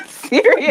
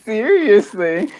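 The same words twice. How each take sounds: First: High, squeaky word through a laugh; laughing seriously. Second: "Seriously" slow, drawn out with a rising end; earnest repeat. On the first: Laughing after answer. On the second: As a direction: stretch "Seriously" and lift the end. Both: Real, not acted.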